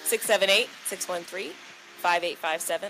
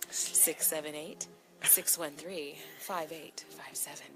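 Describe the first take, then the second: First: The number is said at normal speed. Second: The number is said more slowly.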